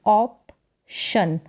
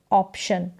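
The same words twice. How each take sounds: First: ऑप्शन very slowly, as ऑप, pause, शन; split into syllables. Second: Said in the usual way. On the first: Shown as a demonstration. Teacher sounding out for learners, ऑप्शन in two slow parts. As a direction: separate ऑप from शन with a gap. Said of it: "आगे वाले जो letters हैं उनको पढ़ना है". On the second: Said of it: "ये साथ में पढ़ें इसको".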